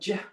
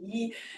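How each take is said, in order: First: The letter is said the English way. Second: The letter is said the German way. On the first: "I'm in English week, I'm going to go j" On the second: "I'm in German week, I'm going to say ye"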